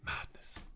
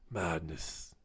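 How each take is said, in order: First: Voiceless, very soft whisper; whispered disbelief. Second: Very low, soft voice; low muttered disbelief. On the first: Ranting about passport tender, whispered disbelief. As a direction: whisper it to yourself. Repeats verdict, first whispered. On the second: Ranting about passport tender, low muttered disbelief. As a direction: say it low and quiet. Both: Real, not acted.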